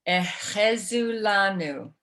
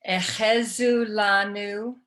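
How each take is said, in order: The two takes are said the same way.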